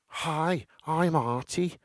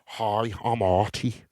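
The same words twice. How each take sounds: First: It is said in a higher, less deep voice. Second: It is said in a deeper, masculine voice.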